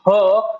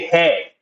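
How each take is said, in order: First: The vowel sounds like 'uh'. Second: The vowel sounds like 'eh'. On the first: The speaker calls it wrong. "instead of saying her" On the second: The speaker calls it right. "we say hey"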